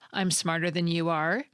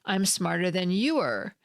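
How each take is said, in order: First: The final 'are' has a full vowel. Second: The final 'are' has a reduced vowel. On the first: "with strong forms are and am" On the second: "I didn't use the strong forms are and am, but I did still pronounce a vowel"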